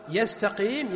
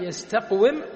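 First: "يستقيم" with a long ee after the qaf; changed form. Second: "يستقوم" with a silent qaf, then wim; original form. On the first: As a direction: say yastaqeem, no waw heard. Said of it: "فصارت على هذه الهيئة". (نطق «يستقيم» بياء ممدودة) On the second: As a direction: say yastaq-wim, sounding the waw with i. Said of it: "الكسرة التي في يستقوم". (نطق «يستقوم» بقاف ساكنة وواو مكسورة) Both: Shown as a demonstration.

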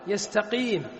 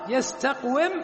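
First: "يستقيم" with a long ee after the qaf; changed form. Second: "يستقوم" with a silent qaf, then wim; original form. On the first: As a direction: say yastaqeem, the waw turned into a long ee. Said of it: "صارت إيش". (نطق «يستقيم» بياء ممدودة) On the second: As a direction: say yastaq-wim with the waw clearly heard. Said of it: "قلبنا الواو". (نطق «يستقوم» بإظهار الواو المكسورة) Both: Shown as a demonstration.

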